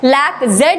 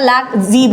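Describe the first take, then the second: First: The final letter is said as 'zed'. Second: The final letter is said as 'zee'. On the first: The speaker calls it wrong. "जेड नहीं बोला जाता" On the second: The speaker calls it right. "लैक जी बोलता है"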